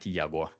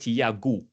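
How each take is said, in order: First: The name has a common foreign-sounding pronunciation. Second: The name has its native Portuguese pronunciation. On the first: This is how most people say it. The speaker calls it wrong. "not Tiago, like eh, like everyone say" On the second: This is how the name's owner says it. The speaker calls it right. "your first name is Tiago"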